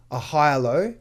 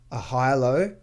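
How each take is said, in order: Both takes have the same delivery.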